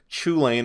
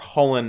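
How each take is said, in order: First: It begins with a ch sound. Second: It begins with an h sound. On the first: It follows the spelling. "Chulane or Hullen if you prefer" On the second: It follows the intended original pronunciation. "it's supposed to be pronounced like Hullen"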